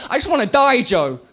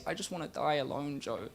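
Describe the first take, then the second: First: Loud, high cry of despair; a desperate scream at Joe; anguished shout. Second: Soft, low, defeated; a hushed, hopeless murmur to Joe; quiet despair. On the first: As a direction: yell it out high and raw. Shouted opening line of poem. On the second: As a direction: let it fall almost to nothing. Same line, now quiet. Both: Acted.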